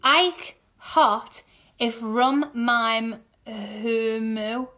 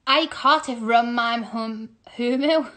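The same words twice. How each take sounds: First: "Ike hot if rum mime humu" word by word; very slow, separated words; slow sounding-out. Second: Said in the usual way. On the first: Real, not acted. Sounding puzzle out slowly.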